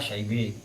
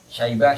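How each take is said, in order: First: The word ends in a tilted 'eh' sound. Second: The word ends in a plain 'ah' sound.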